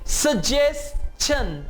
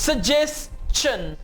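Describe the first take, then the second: First: The ending is a plain 'shun' without 's'. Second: An 's' sound comes before the 'shun' ending. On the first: The speaker calls it wrong. "अब आपने इसे सजेशन नहीं कहना, सजेशन तमाम English में गलत है।" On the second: The speaker calls it right. "आप इसे प्रोनाउंस करेंगे सजेस्शन"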